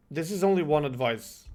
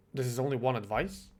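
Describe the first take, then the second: First: Said in the usual way. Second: "one" stressed, rising at the end like a question; puzzled echo. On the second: Real, not acted. Repeating the teammate's words back as a puzzled question. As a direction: echo "This is only one advice?" back in disbelief, lifting "one".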